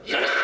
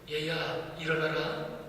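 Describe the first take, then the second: First: It is shouted loudly at a high pitch. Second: It is said gently at a calm pitch.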